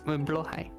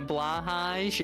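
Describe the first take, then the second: First: The name is said in the Swedish way. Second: The name is said in an English-style way. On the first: The speaker calls it right. "It's blohai" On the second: The speaker calls it wrong. "all of you out there who say blahage"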